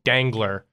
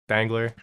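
First: The G and L are pronounced hard. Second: The name is said quickly and lightly. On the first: "pronounce the G and L really hard, like Dangler" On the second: "I just kind of say it quick"

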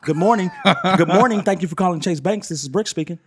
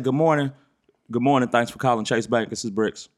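First: It is said in a standard professional voice. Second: It is said in the speaker's own dialect.

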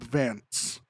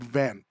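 First: The name ends with an s sound. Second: The name ends with a th sound. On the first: The speaker calls it wrong. "his name is not Cobb Vanth" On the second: The speaker calls it right. "it is Cobb Vanth"

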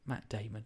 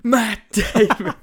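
First: It is said quietly, not shouted. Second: It is said loudly, shouted.

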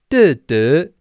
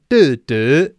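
The two takes are said the same way.

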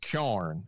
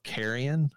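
First: The word is squeezed into one syllable. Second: The word is said with three full syllables. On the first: This is the local form the word wore down into. "it's kyarn is how it's said" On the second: This is the original form of the word. "the bastardization over time of carrion"

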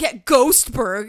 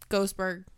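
First: It is said with sassy attitude and punch. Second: It is said flatly with no energy.

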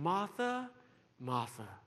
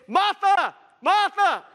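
First: The name is called softly and warmly. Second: The name is called out sharply and angrily. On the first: The speaker is calling someone with affection. The speaker calls it right. "it's most likely a call of tender affection" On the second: The speaker is scolding someone. The speaker calls it wrong. "When you want to scold someone, you don't say, Martha! Martha! Wrong lah"

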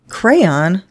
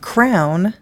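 First: The word is said as two syllables. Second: The word is said as one syllable. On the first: The speaker calls it wrong. "2 syllables, F that noise" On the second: The speaker calls it right. "B's answer was crown"

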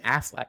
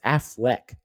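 First: The last syllable has an 'a' vowel, like 'lack'. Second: The last syllable has an 'e' vowel, like 'leck'. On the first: The speaker calls it wrong. "Why are you saying Affleck? He's not the duck" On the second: The speaker calls it right. "It's Affleck. E"

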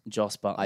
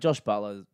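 First: The first name ends with an s sound. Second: The first name ends with an sh sound. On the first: The speaker calls it right. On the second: The speaker calls it wrong.

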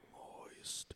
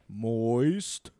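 First: The word is whispered. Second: The word is said in a normal voice.

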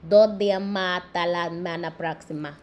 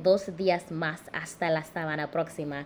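First: Most S sounds are dropped from the words. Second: Every S sound is clearly pronounced. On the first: This is how people speak in the Caribbean. "sometimes the S's just somehow magically disappear" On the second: This is the standard way of speaking. "Instead of saying"

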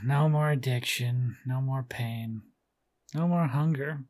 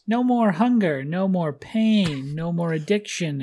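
First: It is said slowly and listlessly, with a sigh. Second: It is said with ordinary energy.

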